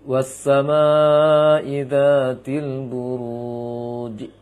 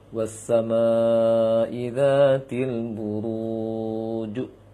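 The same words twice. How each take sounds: First: The final j echo leans toward an i sound. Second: The final j echo leans toward an u sound. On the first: The speaker calls it wrong. "buruj dibaca ke ji dia, berlawanan dengan dhammah yang sebelumnya" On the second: The speaker calls it right. "jim yang waqaf ada jim sebelumnya dhammah. Maka boleh dibaca"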